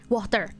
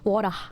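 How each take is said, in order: First: It is said with an American accent, R pronounced. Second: It is said with an Australian accent. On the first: "American way of saying it" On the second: "Australian is the way I say it"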